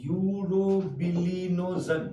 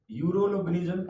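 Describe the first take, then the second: First: Urobilinogen drawn out very slowly, syllable by syllable; slow, deliberate teaching pronunciation of urobilinogen. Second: Said in the usual way. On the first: Shown as a demonstration. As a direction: dictate urobilinogen slowly for students to catch. Teacher spells out new term slowly.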